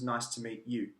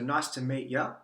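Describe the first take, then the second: First: The last word is said as a full 'you'. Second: The last word is reduced to a short 'ya'.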